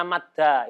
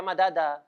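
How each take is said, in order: First: MADDA with the two d's merged into one doubled d; correct merged madda. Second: MADADA with each d given its own vowel; unmerged madada. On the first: Teacher showing students the rule-abiding form, merged "madda". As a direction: say "madda", holding a double d with no vowel between. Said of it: "itu yang sesuai dengan sorof". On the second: Teacher warning students off the wrong reading, unmerged "madada". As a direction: say "madada", separating the two d's with an a. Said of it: "Jangan dibaca madada". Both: Shown as a demonstration.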